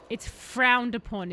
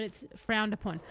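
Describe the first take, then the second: First: Drawn-out, louder FROWNED; stress on FROWNED. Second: Said in the usual way. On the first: Shown as a demonstration. Streamer relishing an odd line in the game text, stress on FROWNED. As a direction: lean slowly and hard on the word frowned. Repeats the odd phrase for emphasis.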